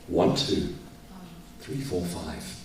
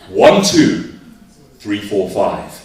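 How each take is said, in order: First: It is said in a sad tone. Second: It is said in an angry tone.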